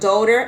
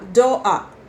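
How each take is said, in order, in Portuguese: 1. É dito com sotaque americano. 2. É dito com sotaque cockney, com o T omitido. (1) "no americano vai falar daughter" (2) "os Cockney vão falar doa, porque eles engolem o som do T"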